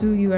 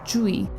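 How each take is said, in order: First: The name is said as its English letters suggest. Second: The name is said with a Korean pronunciation. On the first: "not pronounced Suyu at all, like you would assume with the English letter spelling" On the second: "I will be using the Korean pronunciation of her name"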